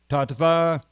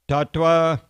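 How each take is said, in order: First: The last syllable is said with a V sound. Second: The last syllable is said with a W sound.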